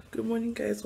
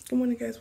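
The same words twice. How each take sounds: First: Croaky morning whisper; barely awake, whispered hello; rusty unused voice. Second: Croaky morning voice, a bit louder; waking voice pushed out; rusty unused voice. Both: Real, not acted. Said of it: "my morning voice".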